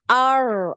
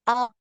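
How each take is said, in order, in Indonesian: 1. Lidah melengkung ke belakang dan r kehilangan ketukannya. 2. Ujung lidah tetap di depan dengan satu ketukan. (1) "Jangan ar, ar. Ini malah hilang ya, ... takrirnya" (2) "Jadi harus ada sekali gitu getarannya ya takrirnya"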